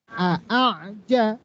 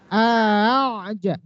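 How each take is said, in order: First: Both hamzas are pronounced fully and separately. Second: The second hamza is softened and glided over. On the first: The speaker calls it wrong. "secara bacaan tulisan" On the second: The speaker calls it right. "baca yang benarnya di ayun"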